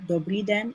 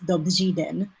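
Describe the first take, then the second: First: The r is a plain r sound. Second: The r is a buzzing r with zh. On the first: The speaker calls it wrong. "like if it's a real R" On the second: The speaker calls it right. "it's dobří den"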